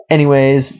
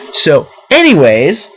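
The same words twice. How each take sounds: First: Said in the usual way. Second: Anyways stretched slow with a lifting end; drawn-out anyways. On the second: Shown as a demonstration. Trying a new catchphrase instead of you know, drawn out. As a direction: sing out so, anyways slowly. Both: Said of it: "that's gonna be my new thing".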